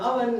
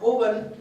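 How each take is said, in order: First: The first vowel sounds like 'uh'. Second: The first vowel sounds like 'oh'. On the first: The speaker calls it right. "it's an oven" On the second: The speaker calls it wrong. "not oven"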